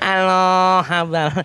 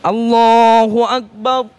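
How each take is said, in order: First: It is said limply with weak energy. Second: It is said loudly with lively energy.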